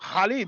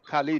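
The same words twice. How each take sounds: First: The name is said with an Arabic throat sound. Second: The name is said with an English pronunciation. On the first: "the Arabic speakers, they pronounce it Khalid" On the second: "we pronounce it Khalid in English"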